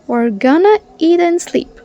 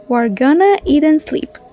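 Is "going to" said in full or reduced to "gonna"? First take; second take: reduced; reduced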